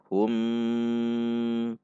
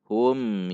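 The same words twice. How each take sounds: First: The syllable is drawn out long. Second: The syllable is said plainly, flowing on. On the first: The speaker calls it wrong. "hum panjang" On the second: The speaker calls it right. "Namun hum yu"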